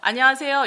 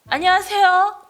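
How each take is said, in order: First: It is said in a low, calm, even tone. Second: It is said in a bright, high, lively tone. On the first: The speaker calls it right. "이렇게 좀 톤 다운돼서 좀 차분하게" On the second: The speaker calls it wrong. "이렇게 하지 않잖아요"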